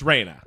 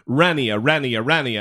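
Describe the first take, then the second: First: The name is pronounced like 'Raina'. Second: The name is pronounced like 'Renia'. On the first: The speaker calls it right. "it's Raina" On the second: The speaker calls it wrong. "We kept saying Renia"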